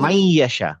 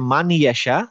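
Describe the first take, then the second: First: The n sound merges into the following y. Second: A clear n sound comes before yasha. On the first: This is how it is recited. "বলে মাই ইয়াশা" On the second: This is how it is written. "আমাদের এখানে থাকে হচ্ছে মান ইয়াশা"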